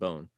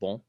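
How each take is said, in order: First: The vowel is oral, not nasal. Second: The vowel is nasal. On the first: "rather than" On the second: "with like a nasal vowel"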